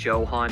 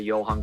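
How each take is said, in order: First: The name begins with a hard J sound. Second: The name begins with a Y sound. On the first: The speaker calls it wrong. "I just don't think Johann is right" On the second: The speaker calls it right. "the J is pronounced like a Y"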